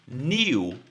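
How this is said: It is said as 'nyoo' with a glide. "No inglês britânico, a gente já vai ter um sonzinho aqui de I"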